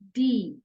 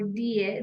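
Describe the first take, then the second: First: The vowel is a long 'ee' sound. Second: The vowel is not an 'ee' sound. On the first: The speaker calls it right. "This is D" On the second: The speaker calls it wrong. "This is not die"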